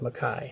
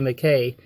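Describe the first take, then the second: First: The last syllable rhymes with guy. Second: The last syllable does not rhyme with guy. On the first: This is the speaker's own pronunciation. "Rhymes with a, good guy" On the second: This is the family's original pronunciation. "that's how he pronounced his last name"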